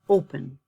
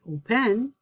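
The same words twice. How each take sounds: First: The stress is on the first syllable. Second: The stress is on the second syllable. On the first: The speaker calls it right. "So my stress is on the first syllable" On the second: The speaker calls it wrong. "I don't say open"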